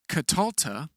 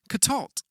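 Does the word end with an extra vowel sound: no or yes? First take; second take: yes; no. First: The word ends with an extra vowel sound. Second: The word ends on the consonant cluster. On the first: The speaker calls it wrong. "They are not vocally pronounced, as in katalta" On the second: The speaker calls it right. "the shvas remain silent, making it katalt"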